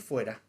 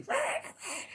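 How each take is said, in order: First: Said in the usual way. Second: Imitando al exorcista. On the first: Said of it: "la palabra que decía es". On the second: Retold or imitated. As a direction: mimic a strained, high-pitched exorcism cry. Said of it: "pero él lo decía así". (chillido agudo imitando al exorcista)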